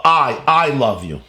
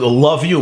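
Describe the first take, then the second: First: "I, I love you" said slowly, with the I repeated and leaned on; stress on I. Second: "love you" said as a puzzled question, missing the I; quizzical wrong version. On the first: Rabbi teaching students, giving the corrected phrase: stressed I. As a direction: land hard on the I before love you. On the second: Rabbi teaching students, showing the wrong text: puzzled. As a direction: question the phrase as if something is lost. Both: Shown as a demonstration. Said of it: "must have an I".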